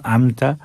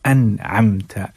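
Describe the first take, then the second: First: अमता drawn out slowly with the nasal dropped; slow chanted अमता, the wrong way; wrong reading. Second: अनअमता slow and chanted, the nasal clearly kept before म; correct reading. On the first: Teacher shows the wrong reading, slow chanted अमता. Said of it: "अमता या अनअमता नहीं". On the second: Teacher gives the correct reading, slow chanted अनअमता. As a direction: recite अनअमता slowly and carefully. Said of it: "बल्कि". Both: Shown as a demonstration.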